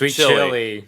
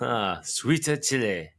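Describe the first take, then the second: First: It is said in a plain American accent. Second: It is said in an imitated Korean accent.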